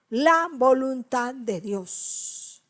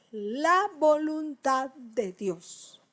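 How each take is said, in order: First: "La voluntad de Dios" stretched slowly; slow repeat. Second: "voluntad de Dios" drawn out slowly; slow emphasis. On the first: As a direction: lean on each word. Repite despacio. ("La voluntad de Dios" lento y solemne) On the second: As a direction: stretch every word. Recalca despacio. ("voluntad de Dios" muy lento y marcado) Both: Shown as a demonstration.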